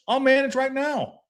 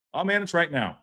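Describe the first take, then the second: First: Higher, slower "I'll manage right now", each word pushed; defiant boast. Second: Said in the usual way. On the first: Real, not acted. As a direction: prove you can do it, raising the voice. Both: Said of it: "You don't think I can manage?".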